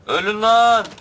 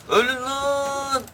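First: High, loud snap of a war cry; "Ölün lan" shouted short and loud; mock war cry. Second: Very high, slow stretched yell of "Ölün lan"; "lan" held long at the top of the voice; drawn-out war cry. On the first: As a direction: yell it at the enemies as you charge. Charging enemies alone in game. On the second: Acted. Charging enemies again in game.

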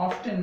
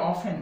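First: Often as "OF-ten", t sounded; mispronunciation. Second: Often as "OFF-en", silent t; correct pronunciation. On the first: Teacher showing what many people say, mispronunciation. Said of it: "often না". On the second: Teacher explaining the silent T consonant, correct pronunciation. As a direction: leave the t out of often. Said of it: "এটার উচ্চারণ হবে". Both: Shown as a demonstration.

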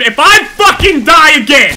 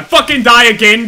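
First: High, very loud, stretched out; furious yell. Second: Loud warning, starting to boil over; exasperated shout. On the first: Player who has died three times, furious yelling. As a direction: blow up on every word. Same threat, escalated. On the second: Player who has died three times, exasperated shout. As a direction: raise your voice in exasperation. Rant about dying repeatedly. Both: Real, not acted.

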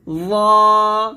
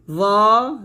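First: ওয়া drawn out thick and louder; heavy ওয়া. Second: ওয়া thick, ending on a rise; heavy ওয়া, rising. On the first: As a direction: give ওয়া a full, heavy, long sound. (ওয়া মোটা করে টেনে) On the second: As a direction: say ওয়া full, lifting at the end. (ওয়া মোটা করে) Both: Shown as a demonstration. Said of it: "ওয়া মোটা করে".

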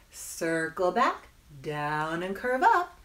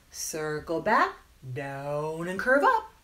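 Both takes have the same delivery.

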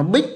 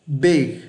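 First: "big" with a high rising tone, cut short; Vietnamese-style big. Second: "Big" with a falling tone and voiced g; English final g. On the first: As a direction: say "big" like a Vietnamese syllable, stopped at the end. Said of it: "người Việt Nam hay đọc nó big". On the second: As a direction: keep the g at the end of "Big". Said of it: "âm G này các bạn đừng bỏ". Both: Shown as a demonstration.

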